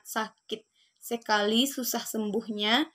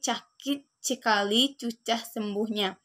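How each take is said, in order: First: The words are said with a clear s sound. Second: The s sounds are replaced by a ch sound.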